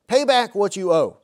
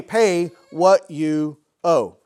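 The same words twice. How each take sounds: First: Demanding quote. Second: Very slow, loud, in a changed voice; menacing demand. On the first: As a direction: read a touch louder and higher, a firm demand. Slave demanding repayment of debt. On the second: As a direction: spit each word out like a threat while choking him. Slave choking fellow slave, demanding. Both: Acted.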